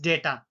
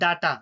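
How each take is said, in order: First: The first vowel sounds like 'ay'. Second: The first vowel sounds like 'ah'. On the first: This is the standard pronunciation. The speaker calls it right. "It's correct प्रोनाउंसिएशन is डेटा" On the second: This is how many Indian speakers say it. The speaker calls it wrong. "Most of Indians pronounce it डाटा"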